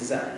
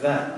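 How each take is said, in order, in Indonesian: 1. Konsonan pertama adalah z Indonesia biasa. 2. Konsonan pertama adalah bunyi asli Arab. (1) "Dalam bahasa Indonesia jadi zat" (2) "Padahal zat"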